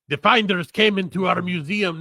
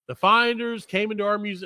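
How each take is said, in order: First: It is said in a put-on Russian accent. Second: It is said in the speaker's natural accent.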